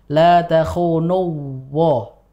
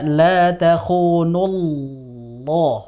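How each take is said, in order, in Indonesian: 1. Konsonan sebelum suku kata terakhir adalah w. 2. Konsonan sebelum suku kata terakhir adalah l tebal. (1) "Bukan la takhunuwah" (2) "Jadi kita baca la takhunullah"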